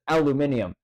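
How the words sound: It has five syllables, ending in -nium. "the way that it's spelt in in Europe and everything else is said as aluminium"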